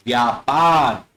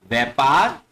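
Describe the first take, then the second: First: व्यापार as "vyaa-paar", drawn out; correct pronunciation. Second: व्यापार as "vai-paar", rising; wrong pronunciation. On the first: Teacher models correct व्यापार, long "vyaa-paar". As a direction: say व्यापार with long yaa, falling. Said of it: "व्यापार होता है". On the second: Teacher reads the mistaken व्यापार as "vai-paar". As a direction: say व्यापार with ai in place of yaa. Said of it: "व्यापार नहीं होता". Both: Shown as a demonstration.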